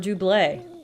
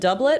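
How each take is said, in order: First: The word is pronounced the French way. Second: The word is pronounced the English way. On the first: "I'm sure the French say double" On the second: "I've always said doublet"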